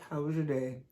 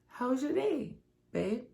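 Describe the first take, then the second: First: It is asked casually, without real interest. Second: It is asked warmly, with genuine interest.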